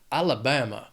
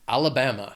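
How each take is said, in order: First: It is said in a strong Southern accent. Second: It is said in a General American accent.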